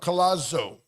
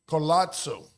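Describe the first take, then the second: First: The name is said without an Italian-style pronunciation. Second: The name is said with an Italian-style pronunciation. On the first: The speaker calls it right. "but no" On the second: The speaker calls it wrong. "I think I was trying to make it Italian"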